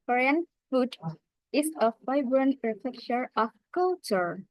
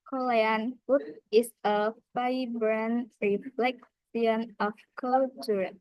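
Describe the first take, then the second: First: American accent, wide pitch range on keywords. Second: Korean accent, every syllable stressed equally. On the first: "In American accent, stress time, full speech, greater pitch variant" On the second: "In Korean accent, equal stress on every syllable"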